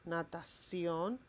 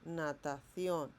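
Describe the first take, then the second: Both takes have the same delivery.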